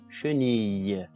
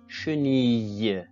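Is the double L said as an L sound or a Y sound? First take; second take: Y sound; Y sound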